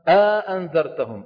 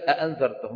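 First: A long a vowel separates the two hamzas. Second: The two hamzas follow each other with no vowel.

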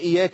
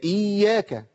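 First: The y sound is single and short. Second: The y sound is doubled and held long. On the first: The speaker calls it wrong. "ايه اياك دي؟" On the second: The speaker calls it right. "هي اياك"

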